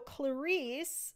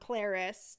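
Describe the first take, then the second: First: The name is said the non-British way. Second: The name is said the British way.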